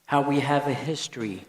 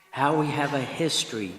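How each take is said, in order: Both takes have the same delivery.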